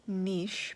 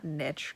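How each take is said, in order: First: NICHE as NEESH; French-derived pronunciation. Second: NICHE as NITCH; short I and hard TCH in NICHE; rejected pronunciation. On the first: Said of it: "it's a French-derived word". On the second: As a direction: say NICHE to rhyme with itch. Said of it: "It's not niche". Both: Shown as a demonstration.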